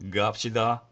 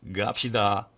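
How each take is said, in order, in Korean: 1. 첫 자음은 유성자음입니다. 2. 첫 자음은 유성자음입니다.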